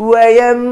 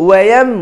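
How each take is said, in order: Both takes have the same delivery.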